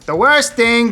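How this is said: It is said in an imitated accent and voice.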